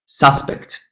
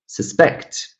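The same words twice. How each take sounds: First: "suspect" as SUS-pect; the noun suspect, stressed up front; first-syllable stress. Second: "suspect" as sus-PECT; the verb suspect, stressed at the end; second-syllable stress. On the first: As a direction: hit the opening syllable of suspect. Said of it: "stress falls on the first syllable". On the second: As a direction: hit the final syllable of suspect. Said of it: "stress falls on the second syllable". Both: Shown as a demonstration.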